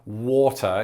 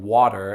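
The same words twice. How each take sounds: First: It is said with a British accent. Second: It is said with an American accent. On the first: "you might say the word water" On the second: "instead of water"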